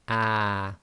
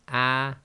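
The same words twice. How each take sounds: First: The vowel is held for two counts. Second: The vowel is held for one short count. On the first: The speaker calls it wrong. "not to make the sounds two lengths long" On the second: The speaker calls it right. "one length long"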